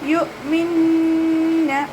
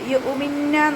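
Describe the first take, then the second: First: The glottal stop is closed without a vowel. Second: An extra vowel follows the glottal stop. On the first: The speaker calls it right. "യു മിന്ന അതുപോലെ ഓതുക" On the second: The speaker calls it wrong. "യു ഉമിന്ന ഓതരുത്"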